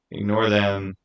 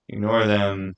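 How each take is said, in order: Both takes have the same delivery.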